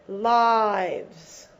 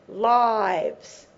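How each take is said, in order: No difference in how they are said.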